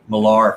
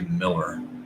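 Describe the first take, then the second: First: The last syllable has an 'ar' sound. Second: The last syllable has an 'er' sound. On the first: The speaker calls it wrong. "I've said Millar for so long, it's kind of hard to break the habit" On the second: The speaker calls it right. "but it's actually Miller"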